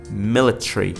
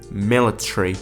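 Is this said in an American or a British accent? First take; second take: British; British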